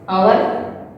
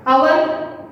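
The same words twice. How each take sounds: First: "our" said with no H, opening on the vowel; silent H. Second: "our" said with an H in front, like "how-er"; sounded H. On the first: Teacher showing how to pronounce it, "our" with H silent. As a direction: start "our" straight on the vowel. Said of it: "we are going to pronounce". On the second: Teacher showing the wrong way, "our" with H sounded. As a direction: put a breathed H before "our". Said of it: "not our is wrong". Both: Shown as a demonstration.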